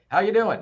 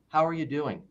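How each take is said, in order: First: It sounds like a passing greeting, not a question. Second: It sounds like a caring question wanting an answer.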